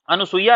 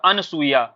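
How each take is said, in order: First: अनुसूया with u after n; wrong nu sound. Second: अनसूया with no u after n; correct form अनसूया. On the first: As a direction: say a-nu-soo-ya for अनुसूया. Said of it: "अनुसूया नहीं होता है आपका". (अनुसूया, नु में उ के साथ) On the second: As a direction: say an-soo-ya for अनसूया. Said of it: "शुद्ध शब्द क्या होता है". (अनसूया, न में उ के बिना) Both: Shown as a demonstration.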